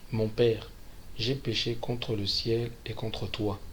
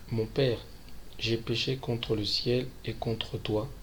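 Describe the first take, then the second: The two takes are said the same way.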